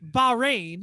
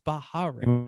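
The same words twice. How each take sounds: First: The word is said with two syllables. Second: The word is said with three syllables. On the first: The speaker calls it right. "I think it's only two syllables" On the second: The speaker calls it wrong. "I don't think it's Bahrain"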